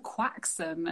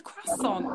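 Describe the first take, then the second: First: QUAXON as "KWAK-sun"; slow QUAXON with kw and a hard x; misheard pronunciation. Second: CROISSANT as "krass-ON", higher and drawn out; slow, raised "krass-ON" for CROISSANT; quoted correct pronunciation. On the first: Quoting fans on what he said, mock QUAXON, "KWAK-sun". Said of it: "everyone was like". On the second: Retelling an actor's interview, CROISSANT said the proper way, "krass-ON". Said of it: "which is how you say it". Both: Retold or imitated.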